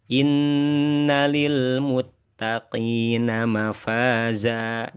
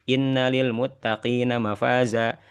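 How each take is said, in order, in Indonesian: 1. Bunyi sengau ditahan dan dipanjangkan. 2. Bunyi sengau dilafalkan cepat tanpa ditahan. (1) "yang ditahan ini perlu latihan" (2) "tidak boleh baca"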